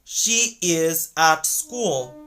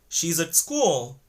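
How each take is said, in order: First: 'At' has a full vowel and a clear T. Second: 'At' has a short uh vowel and soft D. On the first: The speaker calls it wrong. "native speakers won't say" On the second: The speaker calls it right. "they're gonna say"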